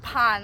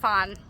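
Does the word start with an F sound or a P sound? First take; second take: P sound; F sound. First: The word starts with a P sound. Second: The word starts with an F sound. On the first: The speaker calls it right. "This is Pan" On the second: The speaker calls it wrong. "this is not Fan"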